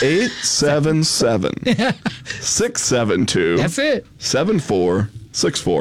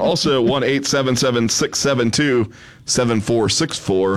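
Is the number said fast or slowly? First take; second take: slowly; fast. First: The number is read slowly and softly. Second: The number is read at normal speed.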